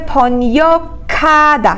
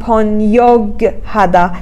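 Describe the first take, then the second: First: The g and h merge into one k sound. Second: The g and h are pronounced separately. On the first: The speaker calls it right. "تلفظش میشه پانیاکادا" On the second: The speaker calls it wrong. "نمیگیم پانیاگ هدا"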